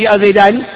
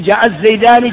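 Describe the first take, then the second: First: جاء زيدان said without the article al; the rejected form, جاء زيدان, no ال; جاء زيدان spoken as the incorrect version; wrong form. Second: جاء الزيدان said with the article al; the right form, جاء الزيدان with ال; جاء الزيدان spoken as the correct version. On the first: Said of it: "ما تقول". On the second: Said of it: "تقول". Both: Shown as a demonstration.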